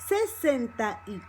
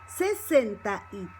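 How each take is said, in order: Both takes have the same delivery.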